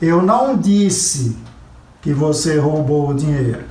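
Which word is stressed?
disse. The stress falls on the word disse. It was only implied. "Eu insinuei, eu sugeri, eu dei a entender, mas eu não disse"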